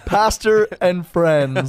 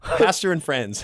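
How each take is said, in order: First: Slow echo. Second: Slow correction. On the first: Echoes correction slowly. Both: Real, not acted.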